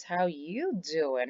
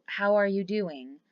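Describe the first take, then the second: First: Slow, flirty, leaning on "you"; flirty drawn-out How you doing?. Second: Said in the usual way. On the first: Shown as a demonstration. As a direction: deliver "How you doing?" slowly, with charm and stress on "you".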